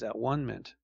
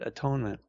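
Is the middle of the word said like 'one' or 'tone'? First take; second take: one; tone. First: It is split into parts with 'one' in the middle. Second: It is said as one word with 'tone' in the middle. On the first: "the goal is at-one-ment" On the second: "Some people pronounce it atonement"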